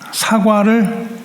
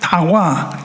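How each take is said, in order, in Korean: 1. 첫 소리는 분명한 s예요. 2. 첫 소리는 d예요. 아이들이 혀 짧게 말하는 것처럼요.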